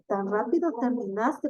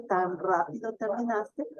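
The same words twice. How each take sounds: First: "Tan rápido terminaste" with a rising question tune. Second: Said in the usual way. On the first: Shown as a demonstration. ("Tan rápido terminaste" con entonación de pregunta ascendente) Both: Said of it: "porque estoy preguntando".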